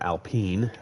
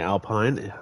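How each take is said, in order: First: It is said with a French pronunciation. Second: It is said with an English pronunciation.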